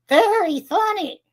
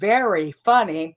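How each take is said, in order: First: The V and F are made with the tongue. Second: The V and F are made with the lips. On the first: "I use my tongue to go to the roof of the mouth" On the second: "instead of saying very funny, putting my lips together"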